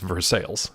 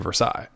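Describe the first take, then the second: First: It is said with the local English pronunciation. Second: It is said with a French-style pronunciation. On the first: This is how local people actually say it. The speaker calls it wrong. "but it's Versailles" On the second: This is how the name properly should sound. The speaker calls it right. "It should be Versailles"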